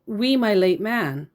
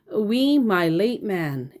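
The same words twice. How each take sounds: First: Reading her odd phrasing. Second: "We, my late man" spelled out slowly, word by word; slow pointed quote. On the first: Retold or imitated. Reading the woman's message: read as written. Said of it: "and she said". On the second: Shown as a demonstration. To her, quoting her odd phrase: slow and pointed. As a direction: dwell on each word of "We, my late man" to show how odd it is. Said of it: "The quote".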